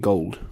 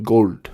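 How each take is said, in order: First: Said in the usual way. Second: GOLD in a British Indian accent, louder. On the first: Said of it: "meaning gold". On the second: Shown as a demonstration. Showing how they might say "gold", in a British Indian accent. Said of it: "it might sound like that".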